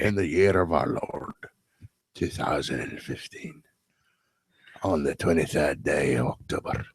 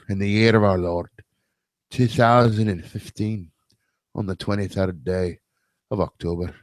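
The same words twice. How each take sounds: First: It is spoken very quietly, almost whispered. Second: It is spoken louder, in a full voice. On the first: The speaker calls it wrong. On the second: The speaker calls it right.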